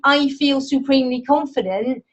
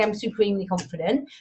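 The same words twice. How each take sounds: First: Said in the usual way. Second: Softer, quick throwaway "I'm supremely confident"; dismissive aside. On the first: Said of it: "the more you say". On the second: Retold or imitated. Trainer brushes off the overblown affirmation, softer and quick. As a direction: toss it off as something you needn't say. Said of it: "You don't have to say".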